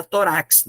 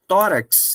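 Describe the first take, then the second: First: "torax" stressed on the final RAX; stress on last syllable. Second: "tórax" stressed on the TÓ; stress on first syllable. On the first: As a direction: push the stress to the end, to-RAX. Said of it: "senão ficaria torax". (tônica no final, "toRAX") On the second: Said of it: "com acento fica tórax". (tônica no TÓ de "tórax") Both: Shown as a demonstration.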